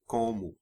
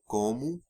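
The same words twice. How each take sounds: First: The reduced final vowel is said lightly, naturally. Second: The reduced final vowel is strongly exaggerated. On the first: "but it's como" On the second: "I'm overemphasizing that a little bit"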